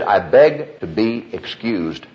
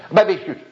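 First: Each word of the excuse drawn out separately; slow, spelled-out repeat. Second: Higher, rushed, words swallowed into one blur; slurred fast accent. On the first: Deacon repeating his excuse for the preacher, slow and distinct. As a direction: say it slowly so it can be understood. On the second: Deacon repeating his excuse to the preacher, higher, garbled and fast. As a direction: blurt it too fast to be understood. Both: Retold or imitated. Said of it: "you said it so fast".

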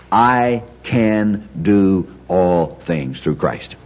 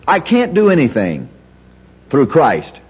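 First: Every word of "I can do all" spaced out evenly; very slow, weighing "I", "can", "do", "all" separately; slow, deliberate emphasis. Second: Higher on "I can't do anything", pause before "through Christ"; emphasis by contrast. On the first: Teacher answers the can't version with the true verse, slow deliberate emphasis. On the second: Teacher gives the opposite of the verse, emphasis by contrast. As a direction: state "can't" firmly, setting "through Christ" apart. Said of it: "emphasize it by contrast". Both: Shown as a demonstration.

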